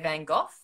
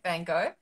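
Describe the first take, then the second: First: Van Gogh is said the Australian way. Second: Van Gogh is said the Canadian way. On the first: "Australians in English we say" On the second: "Canadians say"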